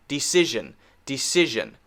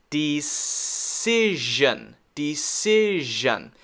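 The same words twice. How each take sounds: First: Said in the usual way. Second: "decision" drawn out as dee-SIIZH-un; very slow "decision" for learners to copy; slow model. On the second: Shown as a demonstration. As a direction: stretch "decision", holding s and zh. Teacher models the word slowly.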